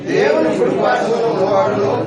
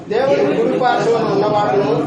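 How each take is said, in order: Both takes have the same delivery.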